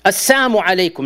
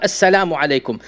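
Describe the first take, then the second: First: "Assalamu" said as "Assamu", the lam dropped, meaning death on you; mocking greeting without the lam. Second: "Assalamu" said in full with the lam, "as-sa-LA-mu"; proper salam. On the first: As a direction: say "Assalamu alaikum" as "Assamu alaikum", no l sound. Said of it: "without the lam". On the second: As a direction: say "Assalamu alaikum" correctly, the l clearly sounded. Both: Shown as a demonstration.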